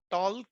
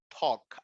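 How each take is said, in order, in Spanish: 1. El sonido L se pronuncia en la palabra. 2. El sonido L es mudo en la palabra. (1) "No es talk ni walk" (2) "la L desaparece"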